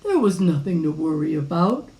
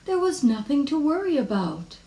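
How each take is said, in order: First: Low father's voice, rising at the end; a hint of a confident dad; reassuring father. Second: High, lilting mother's voice; mother soothing a little worrier; reassuring mother. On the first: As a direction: reassure in a lower, firm tone. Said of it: "said her father". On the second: Acted. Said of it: "said her mother".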